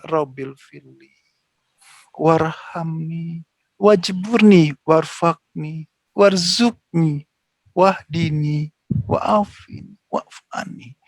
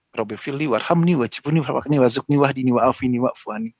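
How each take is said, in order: First: It is recited slowly and calmly. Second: It is recited quickly and hurriedly.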